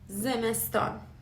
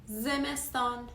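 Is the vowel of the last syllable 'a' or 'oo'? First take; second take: a; a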